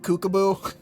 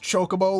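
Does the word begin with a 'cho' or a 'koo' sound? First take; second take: koo; cho. First: The word begins with a 'koo' sound. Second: The word begins with a 'cho' sound. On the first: The speaker calls it wrong. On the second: The speaker calls it right.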